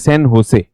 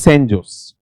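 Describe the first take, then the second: First: The J is said as a breathy h sound. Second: The J is said like English j. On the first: This is the original Spanish way of saying it. The speaker calls it right. "उच्चारण की दृष्टि से इसे क्या कहा जाता है?" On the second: This is the common anglicized way of saying it. The speaker calls it wrong. "हम बोलते हैं इसको सैन जोस"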